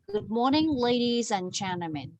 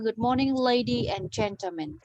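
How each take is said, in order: First: The final s of ladies is linked and pronounced. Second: The final s of ladies is dropped. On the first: The speaker calls it right. "Nghe mình nối âm qua là ... mình có phát âm âm cuối" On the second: The speaker calls it wrong. "thì mình không có âm cuối"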